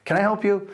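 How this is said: The tone sounds warm and friendly. The man is kindly offering help. The speaker calls it right. "He was very nice about it"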